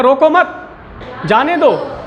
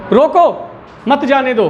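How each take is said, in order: First: "रोको मत" joined high and rising, break, then "जाने दो" falling; pause after मत. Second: "रोको" falling on its own, then "मत जाने दो" as one group; pause after रोको. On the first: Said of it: "और दूसरे में हमने कहा". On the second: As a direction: break straight after "रोको", keep "मत जाने दो" together. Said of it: "पहले में हम कब रुके?". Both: Shown as a demonstration.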